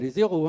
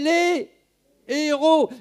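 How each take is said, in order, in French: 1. Un son z lie les à héros. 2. Aucun son z ne lie les à héros. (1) "Pas les héros, hein. Il n'y a pas de, lais, y a pas de liaison" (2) "y a pas de liaison"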